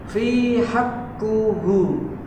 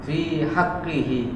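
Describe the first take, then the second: First: The last two syllables have u vowels: qu, hu. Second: The last two syllables have i vowels: qi, hi. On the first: The speaker calls it wrong. "Saya baca fi haqquhu. Benar atau salah?" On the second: The speaker calls it right. "Yang benar adalah"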